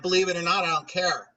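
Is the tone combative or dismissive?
combative. It sounds combative, like yelling back at an equal.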